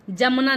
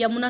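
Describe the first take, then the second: First: जमुना with a j, louder; wrong initial consonant. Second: यमुना with a y; correct initial consonant. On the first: Teacher rejecting the mistake, louder जमुना with a j. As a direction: say जमुना starting "ja". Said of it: "जमुना नहीं". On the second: Teacher giving the pure word, यमुना with a y. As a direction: say यमुना starting "ya", not "ja". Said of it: "यमुना शुद्ध शब्द होता है". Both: Shown as a demonstration.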